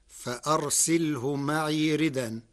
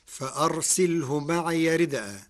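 First: ردا as ridan, no hamza after the dal; hamza dropped. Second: Said in the usual way. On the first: Shown as a demonstration. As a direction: glide through ردا with the dal carrying "an". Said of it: "بنقل حركة الهمز". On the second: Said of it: "قرأ ورش كلمة ردءا".

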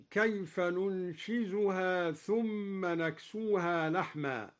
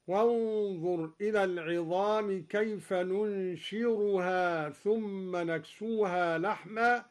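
First: Said in the usual way. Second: ننشرها said with a clear raa where ننشزها has zay; raa instead of zay. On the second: Shown as a demonstration. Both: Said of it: "قرأ الدوري بالراء بدل الزاي هكذا".

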